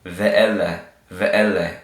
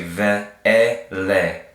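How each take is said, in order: First: "Ve, E, Le" joined into one word, said twice; blended syllables. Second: "Ve, E, Le" syllable by syllable; sounded out. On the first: Teacher repeating the whole word for learners, blended. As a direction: link "Ve, E, Le" smoothly as a whole word. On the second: Teacher reading the word for learners, sounded out. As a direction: separate "Ve, E, Le" into held sounds. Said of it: "So this is gonna say". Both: Shown as a demonstration.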